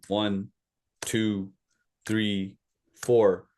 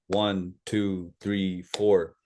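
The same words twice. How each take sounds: First: The counting is slow. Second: The counting is fast.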